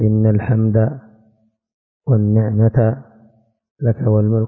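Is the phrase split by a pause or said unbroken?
split. The phrase is broken by a pause. The speaker calls it wrong. "لا تقول"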